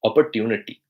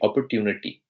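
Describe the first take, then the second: First: The word is said in an Indian accent. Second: The same.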